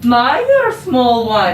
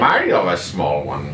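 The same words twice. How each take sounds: First: Warcraft character line. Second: A lower, slower go at the same Warcraft Irish line; lower Warcraft imitation. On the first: Retold or imitated. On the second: Partner repeats the game character's line in a mock Irish accent. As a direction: copy the line low and unsure, slowly, in a mock Irish accent. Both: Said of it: "There's the Irish characters in Warcraft".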